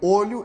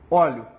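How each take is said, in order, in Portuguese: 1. A vogal tônica é um o fechado. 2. A vogal tônica é um o aberto. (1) "pronunciado de uma maneira mais circunflexa" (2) "ele tem a pronúncia mais aguda"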